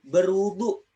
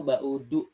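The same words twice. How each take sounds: First: Said in the usual way. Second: BAUDU without r or w, lower pitched; local dialect pronunciation. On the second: Shown as a demonstration. Teacher showing how our people say it, local dialect pronunciation. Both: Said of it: "ujar orang kita".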